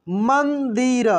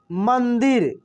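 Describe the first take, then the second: First: मंदिर drawn out slowly syllable by syllable; slow syllable reading. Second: Said in the usual way. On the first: Shown as a demonstration. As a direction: read मंदिर slowly for children. (मंदिर धीरे-धीरे खींचकर)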